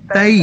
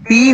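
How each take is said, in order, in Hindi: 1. शब्दांश 'ai' डिफ़्थॉन्ग पर खत्म होता है। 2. शब्दांश लंबे 'ee' स्वर पर खत्म होता है। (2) "ती नहीं होगा ये"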